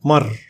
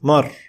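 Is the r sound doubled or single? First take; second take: single; single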